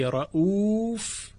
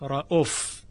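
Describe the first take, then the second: First: The vowel after the hamza is long. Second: The vowel after the hamza is short. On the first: The common reading of the word. "بعد از همزه یک واو که صدای مدی است" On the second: A variant reading of the word. "یعنی واو بعد از همزه حذف شده، رؤوف به جای رؤوف"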